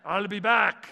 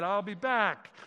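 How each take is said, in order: First: Loud, high imitation of an Austrian accent. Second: Said in the usual way. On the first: Preacher quoting a famous movie line, in an Austrian accent. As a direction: punch it out like an Austrian action star. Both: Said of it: "He didn't say it with an Austrian accent".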